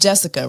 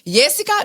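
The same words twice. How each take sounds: First: The name starts with an English J sound. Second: The name starts with a Y sound. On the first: The speaker calls it right. "my name is Jessica" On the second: The speaker calls it wrong. "They just refuse to say the letter J"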